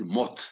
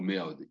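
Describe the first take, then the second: First: The word is said as one short syllable. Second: The word is said with two separate syllables. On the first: "ils disent Mot" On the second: "les germanophones ne peuvent pas dire le mot Me'od"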